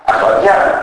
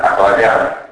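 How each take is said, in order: First: Said in the usual way. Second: "ακλαδιά" ending e-a in two vowels; incomplete synizesis. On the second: Shown as a demonstration. Lecturer showing dialect, "ακλαδιά" with open e-a ending. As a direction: say "ακλαδιά" as akladea, no y glide. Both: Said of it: "το φαινόμενο της ατελούς συνείδησης".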